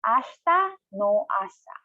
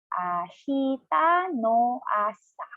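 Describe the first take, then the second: First: It is said at a normal, fluent speed. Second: It is said slowly, syllable by syllable.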